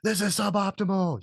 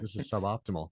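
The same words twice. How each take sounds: First: It sounds tense and alarmed. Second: It sounds relaxed and calm. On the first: The situation is a crisis. The speaker calls it wrong. "you're not going to say it like" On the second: The situation is under control. The speaker calls it right. "You're going to say it like, hey guys"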